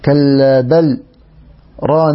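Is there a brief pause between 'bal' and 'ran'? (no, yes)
yes. A brief pause follows 'bal' before 'ran'. "يقف سكتة لطيفة على اللام فيقرأها هكذا"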